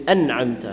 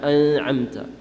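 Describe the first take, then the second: First: The n is pronounced clearly, without nasal hiding. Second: The n is hidden with a nasal sound. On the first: The speaker calls it right. "you're supposed to say an'amta" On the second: The speaker calls it wrong. "not an'amta"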